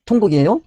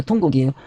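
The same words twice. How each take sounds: First: Rising question tune on 통곡이에요; 통곡이에요 lifted high at the end like a quiz; asking question. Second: Falling answer tune on 통곡이에요; 통곡이에요 settled down firmly; confirming answer. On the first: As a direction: prompt the class, voice climbing on 통곡이에요. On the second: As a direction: give the answer, lowering 통곡이에요. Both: Shown as a demonstration. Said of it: "크게 울었어요".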